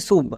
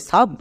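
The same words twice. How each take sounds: First: সুব with an "oo" vowel; wrong pronunciation demo. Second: সাব with an "aa" sound for u; correct pronunciation. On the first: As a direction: say সুব like "soob". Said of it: "এখানে কিন্তু সুব হবে না". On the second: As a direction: say সাব with an open vowel, like "sub". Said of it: "ইউ এর জন্য আকার sound হবে". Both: Shown as a demonstration.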